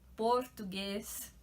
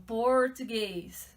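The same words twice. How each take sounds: First: The R is said in a São Paulo city way. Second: The R is said in a strong countryside way. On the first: This is how someone from the capital says it. "falo português" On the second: This is how someone from the interior says it. "o R deles ainda é interior"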